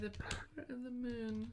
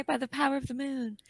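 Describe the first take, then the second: First: Put-on high breathy magical girl call. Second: Lightly voiced magical girl; hint of a transformation call. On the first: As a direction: chant it like a transforming heroine. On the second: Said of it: "what does she say?".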